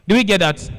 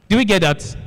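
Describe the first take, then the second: The two takes are said the same way.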